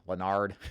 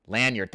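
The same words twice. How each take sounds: First: Lanyard said as luh-NARD; mispronounced Lanyard. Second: Lanyard said LAN-yerd, louder; corrected Lanyard. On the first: Real, not acted. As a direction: put the weight on a long NARD in Lanyard. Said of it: "if I said that wrong". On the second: Shown as a demonstration. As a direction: stress LAN in Lanyard, short yerd after. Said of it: "for the English correction".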